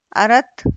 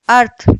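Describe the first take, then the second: First: अर्थ as two syllables, "a-rat"; extra vowel after r in अर्थ; wrong split cluster. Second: अर्थ as one syllable, "arth"; r runs straight into th in अर्थ; correct half-r. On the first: Teacher shows wrong अर्थ, said "arath". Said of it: "अशुद्ध शब्द है". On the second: Teacher corrects अर्थ, said "arth". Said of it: "शुद्ध रूप है". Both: Shown as a demonstration.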